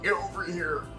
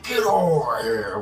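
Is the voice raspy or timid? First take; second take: timid; raspy. First: A weak, timid voice, as if embarrassed. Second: A hoarse, raspy Scorpion voice, as if throat inflamed.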